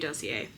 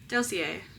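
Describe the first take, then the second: First: The word has a French pronunciation. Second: The word has an English pronunciation.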